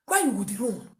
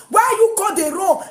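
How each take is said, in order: First: Said in the usual way. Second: "Why you go dey wrong" shouted high, "you" stressed; shouted accusation. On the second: Retold or imitated. Repeated line shouted.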